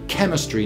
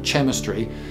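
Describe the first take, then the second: First: The word starts with a hard k sound. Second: The word starts without a hard k sound. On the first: The speaker calls it right. "So we study chemistry" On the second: The speaker calls it wrong. "not chemistry"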